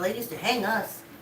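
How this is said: It is said lightly and casually. It is treated as an ordinary old fact. "she didn't say it in a way that she should be devastated"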